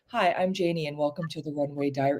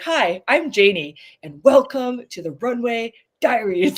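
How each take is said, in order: First: It is said in a calm, soothing way. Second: It is said in a lively, excited way.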